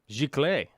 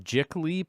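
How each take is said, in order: First: The word is given a French pronunciation. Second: The word is given an anglicized pronunciation. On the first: The speaker calls it right. "it's French" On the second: The speaker calls it wrong. "I'm going to say this wrong"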